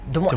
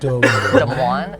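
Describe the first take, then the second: First: The name is said in a plain, normal accent. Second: The name is said with a heavy, exaggerated accent.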